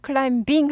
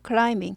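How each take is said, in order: First: A b sound is pronounced after the m. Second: No b sound is pronounced after the m. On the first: The speaker calls it wrong. "클라임빙 하지 않고" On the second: The speaker calls it right. "B가 묵음이에요"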